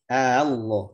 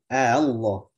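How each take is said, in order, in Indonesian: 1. Hamzah kedua dilunakkan menuju vokal. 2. Hamzah kedua dilunakkan menuju vokal.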